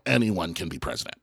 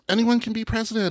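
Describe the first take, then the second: First: It is said in an exasperated, dismayed tone. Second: It is said in a hopeful, inspiring tone. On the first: Any unqualified person can reach the top. "the way we say it now is like, no" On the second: Anyone has the chance to reach the top. "when I was a kid, they used to say that"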